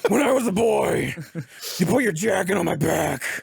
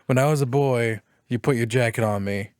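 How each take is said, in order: First: It is said in a gravelly Batman voice. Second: It is said in a normal speaking voice.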